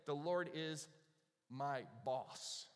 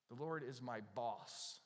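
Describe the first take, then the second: First: Said in the usual way. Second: Slow, deliberate "The Lord is my boss." with each word laid out; slow repeat. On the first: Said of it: "notice he doesn't say". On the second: Shown as a demonstration. Pastor slowly repeating a rejected line to the congregation. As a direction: repeat it slowly so it sounds wrong.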